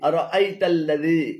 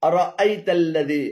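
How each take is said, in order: The two takes are said the same way.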